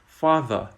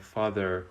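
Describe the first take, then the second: First: The final r is not pronounced. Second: The final r is clearly pronounced. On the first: "in received pronunciation, we don't sound the r at the end of words" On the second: "the American pronunciation where you hear father"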